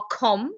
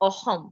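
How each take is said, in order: First: The middle consonant is a hard k sound. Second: The middle consonant is a rough throaty fricative. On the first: The speaker calls it wrong. "It's not akhom" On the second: The speaker calls it right. "pronounce this like you hear me say it"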